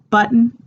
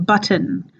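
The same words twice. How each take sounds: First: The middle T is not fully released. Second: The middle T is a hard, released T. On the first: The speaker calls it wrong. "instead of saying like button" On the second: The speaker calls it right. "this hard T"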